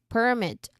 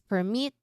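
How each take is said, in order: First: The stress is on the first syllable. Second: The stress is on the second syllable. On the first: It names a license. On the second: It means to allow.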